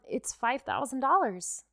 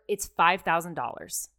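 First: It sounds doubtful and unsure. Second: It sounds firm and confident.

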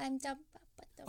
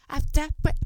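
First: It is said very quietly. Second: It is said very loudly, close to the microphone.

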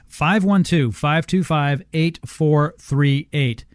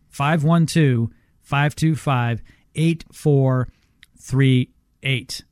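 First: The number is said at normal speed. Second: The number is said slowly.

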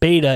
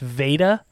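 First: The name begins with a B sound. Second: The name begins with a V sound. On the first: The speaker calls it wrong. "I keep pronouncing it with a B, which is wrong" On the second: The speaker calls it right. "it's Veda"

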